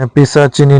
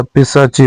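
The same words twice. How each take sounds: First: पिशाचिनी with an added ni ending; wrong form. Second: पिशाची ending on chii; no ni after पिशाची; correct form. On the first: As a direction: end पिशाचिनी on chi-ni. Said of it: "नहीं होता". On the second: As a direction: stop पिशाची at the long chii. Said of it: "होता है". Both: Shown as a demonstration.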